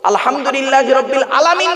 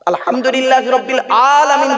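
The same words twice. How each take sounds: First: The first vowel of alamin is short. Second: The first vowel of alamin is drawn out long. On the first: The meaning gets garbled. The speaker calls it wrong. "নয়" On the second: It means the worlds, plural of world. The speaker calls it right. "আতে টান দিতে হবে"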